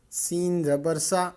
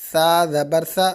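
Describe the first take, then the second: First: سین زبر سا with a sharp, hissing س; whistling seen. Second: سا زبر سا with a soft ث and no whistle; soft thaa. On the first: Teacher shows the whistle in seen for the class. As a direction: let the س in سا whistle clearly. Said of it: "سین میں سیٹی کی آواز آتی ہے". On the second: Teacher contrasts soft thaa with seen for the class. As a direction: say سا gently, without the whistle of seen. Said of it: "سین میں سیٹی ہوتی ہے، سا ہوتا ہے". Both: Shown as a demonstration.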